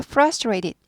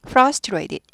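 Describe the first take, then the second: First: The second t is a soft d sound. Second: The second t is a clear t sound.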